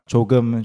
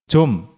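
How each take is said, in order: First: The word is said in full with two syllables. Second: The word is shortened to a single quick syllable. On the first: "people started saying it quickly and it went from 조금" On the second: "when the word 조금 is pronounced really quickly, it often becomes"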